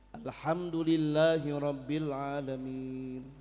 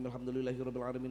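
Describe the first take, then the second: First: It is recited very slowly and drawn out. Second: It is recited quickly, words running together.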